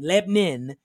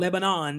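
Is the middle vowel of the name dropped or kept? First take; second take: dropped; kept. First: The middle vowel is dropped, sounding like Lebnin. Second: The middle vowel is kept, with full syllables. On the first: This is how local people say it. "They say Lebanon, L-E-B-N-I-N" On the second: This is not how local people say it. "they don't say Lebanon"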